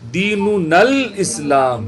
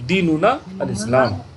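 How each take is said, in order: First: The words run together; the 'a' of 'al' is silent. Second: A stop before 'al'; its 'a' is pronounced. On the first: "लिहाजा ये साइलेंट हो जाएगा" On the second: "रोक के पढ़िए"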